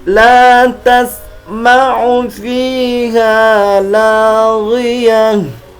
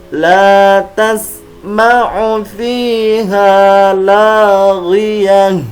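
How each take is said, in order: Both takes have the same delivery.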